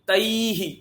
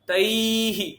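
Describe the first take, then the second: No difference in how they are said.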